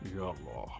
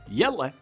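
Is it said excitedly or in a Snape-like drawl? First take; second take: Snape drawl; excited. First: It is said in a slow Professor Snape drawl. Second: It is said quickly and excitedly.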